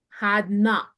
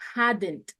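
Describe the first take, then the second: First: It is said as two full words. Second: It is said as one contracted word.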